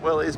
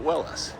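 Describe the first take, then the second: First: The name ends with an 'eez' sound. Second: The name ends with an 'iss' sound. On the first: This is the version commonly heard. "I'd always heard Willie's" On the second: This is the founder's own version. "the person who started the company pronounced it Willis"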